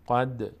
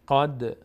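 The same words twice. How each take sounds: First: The final d ends with a slight echoing bounce. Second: The final d ends with a slight echoing bounce.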